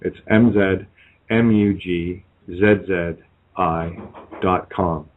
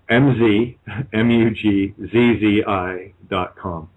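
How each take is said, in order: First: The letters are spelled in a non-American accent. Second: The letters are spelled in an American accent.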